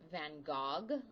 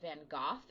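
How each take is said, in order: First: The name is said with French pronunciation. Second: The name is said with Dutch pronunciation. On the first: "if you were in French, you would say" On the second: "if you were in the Netherlands"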